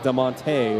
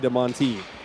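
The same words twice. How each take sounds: First: The final vowel is an 'ay' sound. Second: The final vowel is not an 'ay' sound. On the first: This is how a Southern Californian would say it. "my Southern California Hispanically trained accent would be DeMonte. It would be an A sound" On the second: This is how locals say it. "You say DeMonte"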